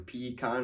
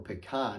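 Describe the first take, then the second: First: The stress is on the first syllable. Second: The stress is on the second syllable. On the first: "on the front half" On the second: "on the second half"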